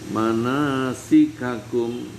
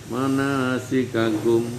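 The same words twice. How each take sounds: Both takes have the same delivery.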